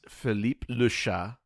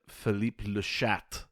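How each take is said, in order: First: The last word is said in masculine form. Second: The last word is said in feminine form. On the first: The name means Philip the cat. "his name is Philippe Le Chat" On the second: The name becomes a vulgar slang word. "she pronounces it Philippe Le Chat"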